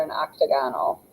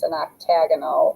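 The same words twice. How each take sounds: First: Octagonal said like octagon plus -al, OK-tuh-GON-al; unshifted stress. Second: Octagonal stressed on the second syllable, ok-TAG-uh-nul; shifted stress. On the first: Teacher offering the other naming, octagonal as OK-tuh-GON-al. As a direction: keep a full GON in octagonal. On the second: Teacher naming the stop sign's shape, octagonal stressed ok-TAG-uh-nul. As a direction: punch TAG in octagonal, short ending. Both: Shown as a demonstration. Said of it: "something weird happens with the stress".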